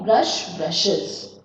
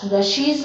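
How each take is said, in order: First: "brushes" with a short iz ending; correct plural. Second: "brushies" with a wrong ee ending; wrong plural. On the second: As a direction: say "brushies" as the error to avoid. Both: Shown as a demonstration. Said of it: "nahi hai".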